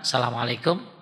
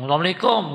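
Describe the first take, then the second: First: It is said at a moderate, soft volume. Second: It is said loudly, shouted out.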